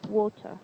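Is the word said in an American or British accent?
British. British accent, with the T fully pronounced. "in British, they pronounce it as much as possible"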